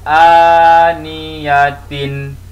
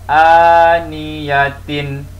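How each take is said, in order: First: The word ends with a full tin syllable. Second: The same.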